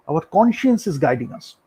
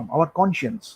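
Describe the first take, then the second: First: "conscience" leaned on and drawn out slowly; slow, weighty "Our conscience is guiding us"; slow emphasis. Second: Said in the usual way. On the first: Shown as a demonstration. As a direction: let "conscience" land heavy, very slow.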